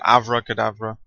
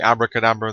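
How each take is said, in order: First: The second consonant is a V sound. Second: The second consonant is a B sound. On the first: "remove the B and put a V" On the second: "They don't say abracadabra"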